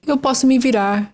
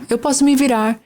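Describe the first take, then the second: No difference in how they are said.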